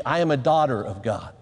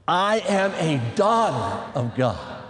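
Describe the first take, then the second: First: Said in the usual way. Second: Slow, low, drawn-out DAUGHTER; leading a recitation. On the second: Shown as a demonstration. Preacher leads the ladies in repeating it, slow recitation. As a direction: stretch each word of the declaration for repeating. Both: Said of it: "say this with me".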